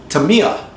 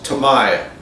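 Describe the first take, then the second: First: The vowel after M is a long E. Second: The vowel after M is not a long E. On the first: This is the Japanese way to say it. "the I in Japan is pronounced like a long E" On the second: This is the American way to say it. "how I pronounce Tamiya"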